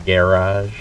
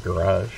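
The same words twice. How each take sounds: First: "garage" with a full first vowel, GAIR-ahzh; variant garage. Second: "garage" as guh-RAHZH, weak first syllable; reduced-vowel garage. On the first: Streamer comparing pronunciations, "garage" as GAIR-ahzh. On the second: Streamer giving the other pronunciation, "garage" as guh-RAHZH. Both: Shown as a demonstration. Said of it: "Instead of garage".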